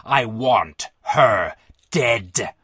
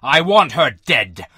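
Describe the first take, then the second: First: Very low, extremely drawn-out demand; choked with emotion. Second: Low, drawn-out furious demand; angry shout. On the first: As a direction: force each word out slowly and deep. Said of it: "Emotion choked off Brazel's voice". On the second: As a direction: roar it slowly as an enraged general. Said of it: "he shouted". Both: A narrator's reading.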